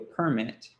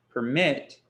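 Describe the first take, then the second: First: The stress is on the first syllable. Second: The stress is on the second syllable.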